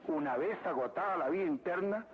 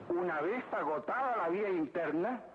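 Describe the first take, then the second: No difference in how they are said.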